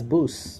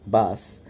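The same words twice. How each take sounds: First: The vowel is a rounded 'oo' sound. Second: The vowel is an open 'ah' sound. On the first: "as bus" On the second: "the transport, bus"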